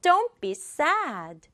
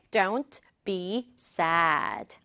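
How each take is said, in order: First: "Don't" and "sad" punched, "be" light; stress on "Don't", "sad". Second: Very slow, separated words. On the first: Teacher demonstrating rhythm, stress on "Don't" and "sad". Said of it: "슬퍼가 중요하죠". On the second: Teacher introducing sentence two, slow word by word. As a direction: give "Don't be sad" one slow word at a time. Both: Shown as a demonstration.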